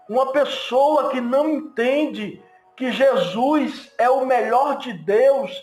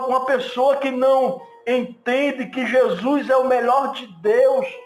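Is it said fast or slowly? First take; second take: slowly; fast. First: It is said slowly and calmly. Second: It is said quickly, without calm.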